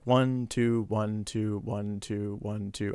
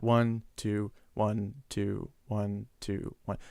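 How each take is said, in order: First: The counting is fairly fast. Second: The counting is slower.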